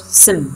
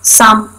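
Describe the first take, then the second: First: The vowel is reduced and weak. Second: The vowel is full and clear.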